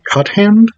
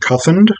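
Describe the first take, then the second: First: The last syllable sounds like 'and', as spelled. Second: The last syllable does not sound like 'and'. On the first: It follows the spelling of the name. "I would probably have defaulted to Cuthand because it is C U T H A N D" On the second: It follows how a local reader said it. "I'm pronouncing her last name Cuthind"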